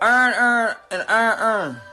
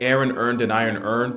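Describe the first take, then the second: First: It is said in a Baltimore accent. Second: It is said in the speaker's general accent.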